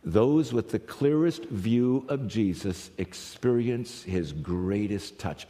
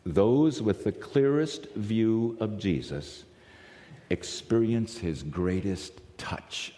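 First: Clearest and greatest leaned on, slow and deliberate; slow emphatic repeat. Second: Those with the clearest view of Jesus experience his greatest touch, slowly, every word weighed; slow emphatic reading. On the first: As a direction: repeat the line slowly so it sinks in. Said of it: "Think about that". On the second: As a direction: read the key line slow and deliberate. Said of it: "I wrote for you there in your notes". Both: Shown as a demonstration.

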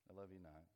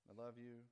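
First: Mock loves-me-not, dropped low and softer; petal-plucking rejection. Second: Mock loves-me chant, level and held; petal-plucking verdict. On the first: God pulling flower petals over a person, mock rejecting. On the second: God pulling flower petals over a person, mildly favourable. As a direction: pretend to pluck a petal on a yes. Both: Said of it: "for each person, God has a flower".

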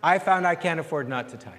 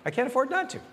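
First: Said in the usual way. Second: American accent. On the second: Shown as a demonstration. Pastor to congregation, playful American accent. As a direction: pitch lifted, in a light American accent on "not". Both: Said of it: "You gotta say it with an American accent".

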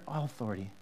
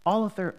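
First: "all authority" dropped low and soft, weighty; weighty stress. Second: Said in the usual way. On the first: Shown as a demonstration. Pastor repeating Jesus' words, low and weighty. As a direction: let "all authority" sink low and heavy. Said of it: "All author-, all authority".

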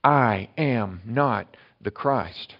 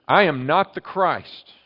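First: Each word laid out very slowly; I am not the Christ, drawn out very slowly; slow and certain. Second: I said high and loud, whole line slowed; forceful denial with I raised and loud; emphatic denial. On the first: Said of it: "That's em-, for emphasis. That is for certainty". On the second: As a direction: proclaim it hard, stressing I. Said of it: "That's em-, for emphasis". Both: Shown as a demonstration.

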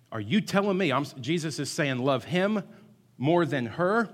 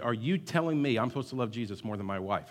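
First: Higher, louder indignant protest; hammed-up outrage from a young husband; man in Sunday school objecting, angrily; angry retort. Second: Said in the usual way. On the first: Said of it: "he got, he got mad". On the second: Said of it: "he got mad".

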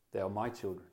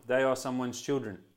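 First: Softer, lower, "my" leaned on tenderly; quiet weight on "my" in "They are my children"; stress on my. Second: Said in the usual way. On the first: Shown as a demonstration. Pastor claiming his own children, soft stress on my. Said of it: "It's the word my". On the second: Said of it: "same sentence, slightly different each time".

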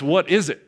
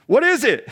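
First: Said in the usual way. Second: High, puzzled what is it; puzzled question. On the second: Retold or imitated. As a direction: ask it baffled and high. Puzzled Israelites voiced.

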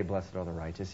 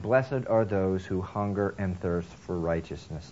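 First: Low, much softer misquote. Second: Slow, deliberate scripture reading; correct quote. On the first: Preacher softly giving the wrong quote of Jesus. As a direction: drop it low and quiet as the wrong version. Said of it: "Jesus didn't say". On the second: Preacher slowly giving Jesus's actual words. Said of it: "He said". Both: Shown as a demonstration.

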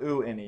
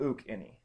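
First: "u any" with no k, vowel running into vowel; unwanted form. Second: "uk any" with a k closing the oo before any; correct form. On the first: Teacher shows students the form you don't want, "u any" without the k. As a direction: say "u any" as plain oo before any, no k. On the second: Teacher shows students the wanted form, "uk any" with the k. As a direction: say "uk any" with a k breaking up the two vowels. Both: Shown as a demonstration. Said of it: "phonetic pronunciation of it".

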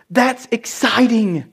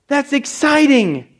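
First: Said in the usual way. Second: Excited. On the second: Shown as a demonstration.

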